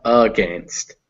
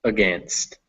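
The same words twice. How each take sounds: First: "against" with a long, full first vowel, drawn out; unreduced first vowel. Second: "against" with a quick, weak "uh" first vowel; schwa in against. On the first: Teacher shows learner what to avoid, unreduced "a" in "against". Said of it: "not against". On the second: Teacher models the unstressed vowel for learner, schwa in "against". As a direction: reduce the opening of "against" to a small "uh", weight on "gainst". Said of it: "that first vowel is uh". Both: Shown as a demonstration.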